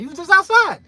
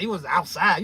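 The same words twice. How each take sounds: First: "just outside" thrown out high and loud; emphatic "You was just outside" with "just" punched; stress on just outside. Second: Said in the usual way. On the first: Shown as a demonstration. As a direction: hit "just outside" hard, pitch jumping up. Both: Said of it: "two different meanings between you are outside and you just outside".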